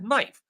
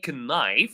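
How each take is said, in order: First: The word starts with an N sound. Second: The word starts with a K sound. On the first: The speaker calls it right. "I said knife" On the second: The speaker calls it wrong. "I did not say knife"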